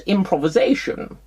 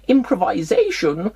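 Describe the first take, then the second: First: It is said the American way, stress shifted. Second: It is said the speaker's usual non-American way. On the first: The speaker calls it wrong. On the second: The speaker calls it right.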